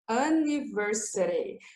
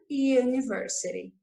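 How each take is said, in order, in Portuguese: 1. Começa com um som de vogal simples. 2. Começa com um som de 'you'. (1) "Eu não falo anniversary, anniversary, como eu falo uncle" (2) "Eu falo com sonzinho de you"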